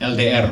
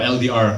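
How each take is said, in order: First: The letters are said with an Indonesian accent. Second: The letters are said with an American accent.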